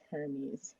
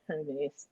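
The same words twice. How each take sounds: First: It is pronounced as the Greek god's name. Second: It is pronounced as the fashion brand's name. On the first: It names the Greek messenger god. "Mercury's Greek counterpart is Hermes" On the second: It names the luxury bag brand. "not Hermes, the bag"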